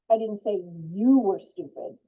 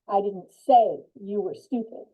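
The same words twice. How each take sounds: First: The stress is on the word you. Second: The stress is on the word say.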